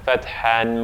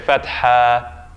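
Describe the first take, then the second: First: The word ends with an n sound. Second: The word ends in a long a vowel. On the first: The reader continues to the next word. "if I'm going on, I would say the the tanween there" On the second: The reader pauses after this word. "if I stop here, I'd say fatha ... I say it as an alif"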